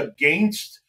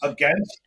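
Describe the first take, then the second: First: It is said with a Canadian accent. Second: It is said with an American accent. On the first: "you say against. So there's a little bit of a Canadian" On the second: "we say against"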